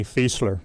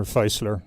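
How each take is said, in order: First: "Fiesler" with a long ee, FEES-ler; FEE pronunciation. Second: "Feisler" with an eye vowel, FICE-ler; FICE pronunciation. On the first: Guest naming the German aircraft company, "Fiesler" said FEES-ler. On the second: Guest offering the other German pronunciation, "Feisler" said FICE-ler. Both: Shown as a demonstration. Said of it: "discussion even among Germans".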